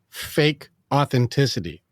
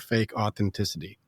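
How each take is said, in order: First: It is said slowly. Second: It is said at normal speed.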